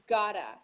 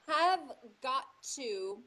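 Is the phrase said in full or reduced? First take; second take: reduced; full. First: The words are reduced and linked into one. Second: Each word is said separately and in full. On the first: "we say it I've gotta or I gotta" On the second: "the reduction and linking of have got to"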